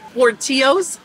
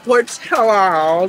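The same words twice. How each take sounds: First: The double L sounds like a Y. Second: The double L sounds like an L. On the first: The speaker calls it wrong. "pronounced like tortilla" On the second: The speaker calls it right. "now I know it's called Portillo's"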